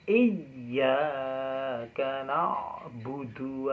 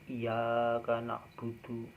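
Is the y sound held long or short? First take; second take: long; short. First: The y sound is held long, doubled. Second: The y sound is short, not doubled. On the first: The speaker calls it right. "ditekan dua harokat karena ini tasdid" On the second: The speaker calls it wrong. "Bukan iyyaka na'budu"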